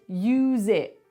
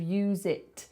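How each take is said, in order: First: The final T is a glottal stop. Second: The final T is clearly pronounced. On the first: "I just did it there" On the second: "instead of use it"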